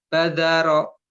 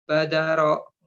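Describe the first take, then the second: No difference in how they are said.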